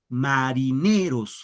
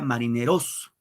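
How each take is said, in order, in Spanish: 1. El acento está en la sílaba ne. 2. El acento está en la sílaba ros. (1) "fíjense, en ne" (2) "Si fuera en ros, diría marineros"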